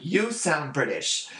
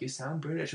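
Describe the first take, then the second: First: Slow, drawn-out mock indignation; exaggerated, slowed-down comeback; indignant retort. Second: Said in the usual way. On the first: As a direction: throw it back at them, stretching YOU and BRITISH. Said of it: "I'm like". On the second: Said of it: "they're like".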